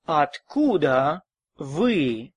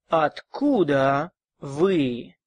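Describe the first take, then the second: No difference in how they are said.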